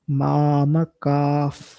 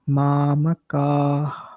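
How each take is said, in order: First: The word ends with a breath shaped by the lips. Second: The word ends with a plain breathy exhalation. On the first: "if you want to match that perfection" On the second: "focus on the base sound of the visarga"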